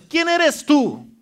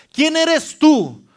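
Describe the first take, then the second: First: Slow, drawn-out high rebuke; defiant challenge. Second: Drawn-out, high, loud challenge; defiant challenge. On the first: Preacher rebuking the mountain for the church, slow and loud. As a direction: hold each word and confront it. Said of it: "qué dice la palabra de Dios". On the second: Preacher showing how to rebuke a mountain, drawn-out and loud. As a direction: stretch it out and defy the mountain. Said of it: "vas a poder tú decirle". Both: Shown as a demonstration.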